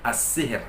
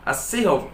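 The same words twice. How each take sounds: First: As-sihir with a light thin r, softer; correct thin ra. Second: As-sihr with a heavy thick r; wrong heavy ra. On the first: Teacher gives the correct reading, thin ra. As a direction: model the right as-sihir. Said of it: "Yang benar". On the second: Teacher demonstrates the wrong reading. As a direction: show the error in as-sihr. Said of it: "Bacaan yang salah". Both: Shown as a demonstration.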